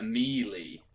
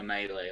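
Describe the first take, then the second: First: "melee" said as MEE-lee; original pronunciation. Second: "melee" said as MAY-lay; French-derived pronunciation. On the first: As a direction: give "melee" two ee sounds, MEE-lee. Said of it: "is the original pronunciation". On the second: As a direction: give "melee" two ay sounds, MAY-lay. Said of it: "changed it to melee". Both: Shown as a demonstration.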